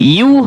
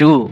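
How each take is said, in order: First: The syllable begins with a y glide. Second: The syllable begins with a plain vowel. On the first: The speaker calls it right. "ইয়া পেশ ইউ হবে।" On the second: The speaker calls it wrong. "অনেকে পরে"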